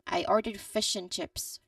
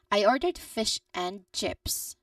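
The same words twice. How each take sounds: First: The word 'and' is reduced to 'n'. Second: The word 'and' is said in full.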